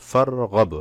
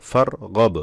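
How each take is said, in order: Both takes have the same delivery.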